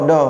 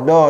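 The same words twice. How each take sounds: Both takes have the same delivery.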